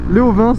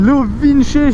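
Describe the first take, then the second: First: The name ends in a consonant, French style. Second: The name ends with an 'ee' vowel sound. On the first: The speaker calls it right. "je préfère le dire à la française" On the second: The speaker calls it wrong. "je trouve ça fait un peu un peu bizarre"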